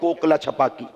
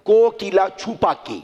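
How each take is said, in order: First: The name is said in its shortened everyday form. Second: The name is said in its full original form. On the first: This is how people commonly say it. "हम इसको अपने लफ्जों में कहते हैं" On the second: This is the word's original form. "असल लफ्ज है कोकीला।"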